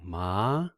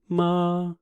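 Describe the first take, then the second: First: The pitch rises from middle to high. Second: The pitch stays level and high. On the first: "This is called the rising tone" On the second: "the first one is flat tone"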